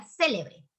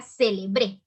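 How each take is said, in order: First: CÉ-lebre, first syllable punched, rest falling away; "célebre" with the weight on the opening "cé"; stress on first syllable of célebre. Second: Ce-le-BRÉ, final syllable punched louder; "célebre" with the weight landing on the closing "bre"; stress on last syllable of célebre. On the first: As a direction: say célebre as SÉ-le-bre. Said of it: "la mayor fuerza de voz en C". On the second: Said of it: "va a cambiar". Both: Shown as a demonstration.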